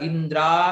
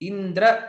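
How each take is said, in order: First: The final vowel is drawn out long. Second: The final vowel is short. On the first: It names one destroyed by Indra. The speaker calls it wrong. "இழுத்து சொல்லிட்டேன்" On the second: It names one who destroys Indra. The speaker calls it right. "இந்திர அப்படின்னு சொல்றதுக்கு பதிலா"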